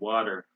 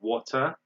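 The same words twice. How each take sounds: First: The middle consonant is a soft D sound. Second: The middle consonant is a crisp T sound. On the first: "We say water. So this T becomes D" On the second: "They say water in British"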